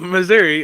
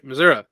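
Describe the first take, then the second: First: Missouri is said in the usual widespread way. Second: Missouri is said in a regional family way. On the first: "Instead of Missouri" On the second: "I say Missouri"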